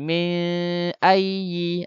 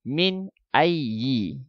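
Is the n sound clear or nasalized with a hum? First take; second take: nasalized; clear. First: The n is held with a nasal hum. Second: The n is clear with no nasal hum. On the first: The speaker calls it wrong. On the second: The speaker calls it right.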